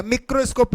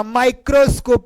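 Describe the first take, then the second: First: "मिक्रोस्कोप" opening with short mi; wrong pronunciation. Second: "माइक्रोस्कोप" opening with my; correct pronunciation. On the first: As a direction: misread it as "मिक्रोस्कोप", mik-ro. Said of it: "मिक्रोस्कोप नहीं". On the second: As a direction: spell out "माइक्रोस्कोप" as mai-kro-skop. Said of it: "माइक्रोस्कोप पढ़ते हैं". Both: Shown as a demonstration.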